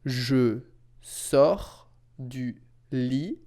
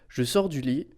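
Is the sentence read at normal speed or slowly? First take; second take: slow; normal. First: It is read slowly and carefully. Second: It is read at a normal, flowing speed.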